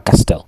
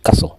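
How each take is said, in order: First: The t sound is pronounced in the middle. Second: The t sound is silent in the middle. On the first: The speaker calls it wrong. "On ne dit pas castel" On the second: The speaker calls it right. "Normalement, en anglais, c'est castle"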